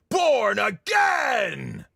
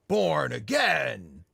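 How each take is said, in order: First: It is yelled loudly and gutturally. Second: It is said without a loud yell.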